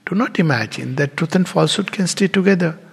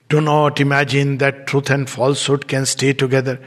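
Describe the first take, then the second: First: It is said in a gentle, explaining tone. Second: It is said in a stern, commanding tone. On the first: It is kind advice, like a father explaining. The speaker calls it right. "Jaise pita baith ke samjha raha hai" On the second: It is a harsh order from a strict disciplinarian. The speaker calls it wrong. "It's not like this he has said"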